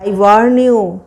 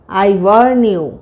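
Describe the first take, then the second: First: Said in the usual way. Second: "I warn you" said very slowly; slow teaching repeat. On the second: Shown as a demonstration. Teacher repeating "I warn you" very slowly for students. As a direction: lean slowly through "I warn you" for learners.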